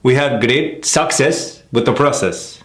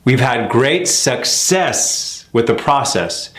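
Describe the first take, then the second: First: "we have great success with the process" slow, lift on "we"; slow, stress "we" then flow on; contrasting sentence rhythm. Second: "We've had great success with the process" slow, weight on great; slow even rhythm, lean on "great"; even, slow sentence stress. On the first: Teacher showing the other rhythm for comparison. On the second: Teacher modelling a sentence's flat rhythm slowly. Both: Shown as a demonstration.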